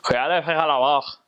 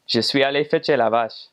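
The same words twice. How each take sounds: First: "Je suis allé fetcher la vache" rushed and mushed together, sounds swallowed; a thick Lac-Saint-Jean farmer; heavy joual accent. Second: "Je suis allé fetcher la vache" said clearly and evenly; the clean reference version; standard Quebec French. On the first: Lac-Saint-Jean local fetching the cow, in heavy joual. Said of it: "Lac-Saint-Jean would say it more like". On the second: Normal speaker fetching the cow, in standard Quebec French. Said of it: "a normal person would say". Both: Shown as a demonstration.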